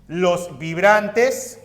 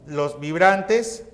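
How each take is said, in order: Both takes have the same delivery.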